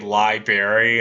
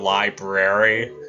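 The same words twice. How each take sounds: First: The word is said like 'liberry', dropping one r. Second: The word is said with the full 'brary' ending. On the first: This is how the speaker said it as a young child. The speaker calls it wrong. "I used to say library instead of library" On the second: This is the usual way to say it. The speaker calls it right. "instead of library"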